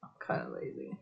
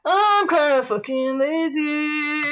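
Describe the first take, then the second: First: Very soft, low aside; quiet mumble. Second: Sung, belt it out and hold the last note; singing. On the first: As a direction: admit it almost inaudibly to yourself. Admits it, then sings it. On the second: Repeats the admission in song. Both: Real, not acted.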